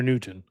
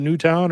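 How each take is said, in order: First: "Newton", second syllable weak, like the scientist; Newton pronunciation. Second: "Newtown", second syllable rhyming with down; Newtown pronunciation. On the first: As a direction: say "Newton" with a reduced "tun" ending. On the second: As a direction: say "Newtown" with a full "town" ending. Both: Shown as a demonstration. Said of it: "do you think they pronounce it".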